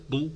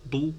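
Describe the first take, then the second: Both takes have the same delivery.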